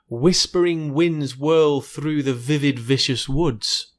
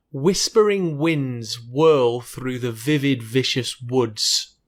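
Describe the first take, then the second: First: Measured "Whispering winds whirl", w's kept apart from v's; careful w and v. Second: Slow, deliberate, every word articulated; slower and clearer. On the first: Teacher attempts the final tongue twister, careful enunciation. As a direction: round the w in "winds", buzz the v in "vivid, vicious". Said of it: "especially the v sound". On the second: Teacher tries it again for clarity, slow and clear. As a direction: take the tongue twister slowly, for clarity. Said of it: "a little bit slower and clearer". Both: Shown as a demonstration.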